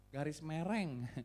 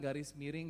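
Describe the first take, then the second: First: The second word is said with 'e' vowels. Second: The second word is said with clear 'i' vowels.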